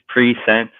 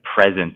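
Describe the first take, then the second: First: The word sounds like 'pre-sent' with an s. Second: The word sounds like 'prez-ent' with a z. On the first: The speaker calls it right. "could it be that it's pre-sent, like it was already sent" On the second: The speaker calls it wrong. "the word present is like pronounced wrong"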